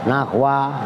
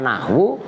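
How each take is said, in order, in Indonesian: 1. Kata ini berakhir dengan vokal 'a'. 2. Kata ini berakhir dengan vokal 'u'. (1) "kalau nahwa sebagai maf'ul" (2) "Kalau nahwu sebagai khobar"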